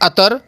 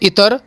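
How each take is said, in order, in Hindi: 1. यह 'a' से शुरू होता है, और r से पहले एक स्वर है। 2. यह 'i' से शुरू होता है, और r से पहले एक स्वर है। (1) "सब के सब गलत हैं" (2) "सब के सब गलत हैं"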